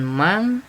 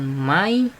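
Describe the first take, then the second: First: The word ends in an ng sound. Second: The word ends in an i sound. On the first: "bukan mang" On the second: "bukan mai"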